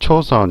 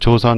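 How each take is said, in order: First: The word begins with an aspirated ch sound. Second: The word begins with a soft j sound. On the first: "외국 사람들이 하는 식으로 초선 이런 식으로 발음을 하니까" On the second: "sun이 우리 그냥 그냥 발음하면 선이잖아요. 그러니까 조선 이렇게 되는 거예요"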